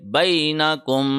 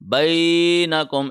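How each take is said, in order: First: The first syllable's vowel is kept short. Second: The first syllable's vowel is stretched out long. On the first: The speaker calls it right. "बल्कि बैनकुम" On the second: The speaker calls it wrong. "ऐसे नहीं होगा"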